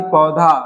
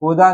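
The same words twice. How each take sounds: First: Said in the usual way. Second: पौधा ending in plain "da": "pauda"; no breath on the end of पौधा; da for dha. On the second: Shown as a demonstration. Teacher showing a wrong form, plain "da" in पौधा. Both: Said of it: "नहीं".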